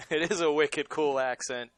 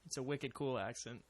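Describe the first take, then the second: First: Laughing Boston accent. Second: Wicked cool, Boston style; playful Boston accent. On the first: Real, not acted. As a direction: own Boston accent, amused. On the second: Retold or imitated. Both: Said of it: "Boston accent".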